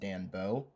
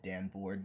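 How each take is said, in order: First: The second part sounds like 'bow', ending in a vowel. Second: The second part sounds like 'board', ending in 'rd'. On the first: The speaker calls it right. "It's pronounced Dan Bow" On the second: The speaker calls it wrong. "That's not the right pronunciation"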